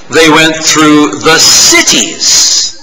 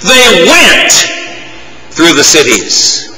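First: The stress falls on the word 'cities'. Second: The stress falls on the word 'went'. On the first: They went to the places where the people were. "Let's place the emphasis on a different word in that verse" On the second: They actively went out rather than waiting. "You have to go. The process is active, not passive"

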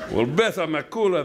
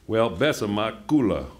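First: The line is voiced in the character's accent. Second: The line is read without the character's accent. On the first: The speaker calls it right. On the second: The speaker calls it wrong.

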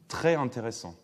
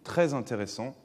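First: Très and intéressant are said without a linking consonant. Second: A linking consonant joins très and intéressant. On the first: The speaker calls it wrong. "Personne d'entre vous ne dirait" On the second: The speaker calls it right. "liaison parce que très n'est pas un nom"

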